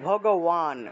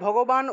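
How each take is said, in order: First: The middle consonant is a w sound. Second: The middle consonant is a b sound. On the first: The speaker calls it right. "ভগওয়ান উচ্চারণ করব" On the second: The speaker calls it wrong. "ভগবান উচ্চারণ না করে"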